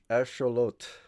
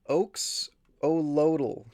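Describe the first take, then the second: First: The word has an 'sh' sound in the middle. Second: The word has a 'ks' sound in the middle. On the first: "I already forgot how he said it" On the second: "I say"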